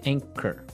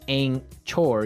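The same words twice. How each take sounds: First: The middle is said without a usual 'ch' sound. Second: The middle is said with a usual 'ch' sound. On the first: The speaker calls it right. "you don't pronounce the C H as you normally would" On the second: The speaker calls it wrong. "you don't say anchor"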